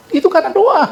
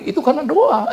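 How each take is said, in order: First: Much higher, louder insistent reply; emphatic insistence. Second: Said in the usual way. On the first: Retold or imitated. Preacher insists to a scoffer that it was prayer, raised and emphatic. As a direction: fire it back firmly and high. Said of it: "saya bilang".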